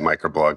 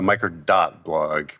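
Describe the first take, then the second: First: The name is said without the word dot. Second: The name is said with the word dot. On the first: This is the common casual way of saying it. "A lot of people don't. A lot of people just say Micro.blog" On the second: This is the official way of saying it. "We pronounce the dot"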